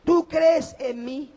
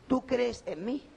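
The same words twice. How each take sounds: First: "Tú crees en mí" proclaimed loud, high and slow with stress on "Tú"; preacher lands the key phrase on the congregation, loud and slow; emphatic, slow preaching. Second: Said in the usual way. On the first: Shown as a demonstration. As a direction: hammer home "Tú crees en mí", each word drawn out. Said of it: "Esto no es un juego de palabras". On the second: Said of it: "Tú crees en mí" repeated".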